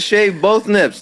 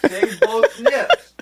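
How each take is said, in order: First: Said in the usual way. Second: Slow and high, like reading out an order; mock solemn decree. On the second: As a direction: announce it slowly like a decree. Repeating the chat request.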